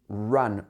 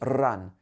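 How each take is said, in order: First: The R is smooth with the tongue not touching. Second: The R is rolled with the tongue tapping. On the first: The speaker calls it right. "It should be run" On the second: The speaker calls it wrong. "It shouldn't be run"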